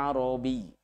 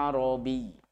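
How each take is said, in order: The two takes are said the same way.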